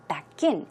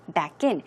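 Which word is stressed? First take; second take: in; in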